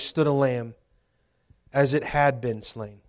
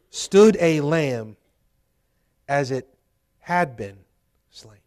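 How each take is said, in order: First: It is read at normal speed. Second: It is read slowly.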